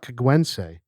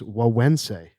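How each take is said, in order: First: The name is said with hard g sounds. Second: The name is said with w sounds. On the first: The speaker calls it wrong. "It is not Kagwense" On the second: The speaker calls it right. "It is Wawense"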